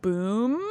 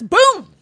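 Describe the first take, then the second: First: The voice rises like a question. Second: The voice falls like an exclamation.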